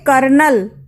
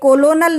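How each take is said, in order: First: It is said in two syllables, ker-nel. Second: It is said in three syllables, ko-lo-nel. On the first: The speaker calls it right. "इसे कहेंगे कर्नल" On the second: The speaker calls it wrong. "ये कोलोनल नहीं पढ़ा जाएगा"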